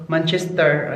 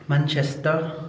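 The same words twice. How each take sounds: First: Said in the usual way. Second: "Manchester" ending in an open "-tah", no r; British-style pronunciation. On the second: Shown as a demonstration. Vlogger recalling a concert city, "Manchester" said British-style without the r. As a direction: drop the final r of "Manchester".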